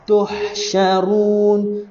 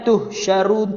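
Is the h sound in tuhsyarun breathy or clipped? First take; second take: breathy; clipped. First: The h sound releases the breath audibly. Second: The h sound is clipped and held back. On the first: The speaker calls it right. "Tuh lepas nafas" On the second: The speaker calls it wrong. "jangan tuhsyarun tuh tuh"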